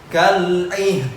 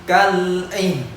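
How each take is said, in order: No difference in how they are said.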